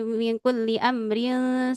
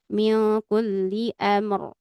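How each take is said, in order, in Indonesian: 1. Frasa ini berlanjut dengan r yang tipis. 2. Frasa ini berhenti pada r yang tebal. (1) "kalau diwasal semuanya menjadi tipis" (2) "di sini semuanya tebal kalau di diapakan? Diwakafkan"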